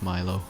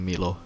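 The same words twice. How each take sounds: First: The name is said with an English accent. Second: The name is said with a Finnish accent. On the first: "English it's" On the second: "If it's Finnish, Finnish like accent, it would be"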